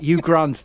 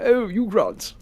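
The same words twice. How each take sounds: First: Said in the usual way. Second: Higher-pitched put-on English accent; mock English accent. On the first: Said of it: "what is it?". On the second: Mocking Americans' idea of English speech, exaggerated English accent. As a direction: imitate a caricatured English swoon. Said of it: "Nobody talks like that".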